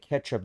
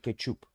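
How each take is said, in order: First: It is said with a native English accent. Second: It is said with a foreign accent. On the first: "foreigners will not say ketchup" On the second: "they'll say ketchup"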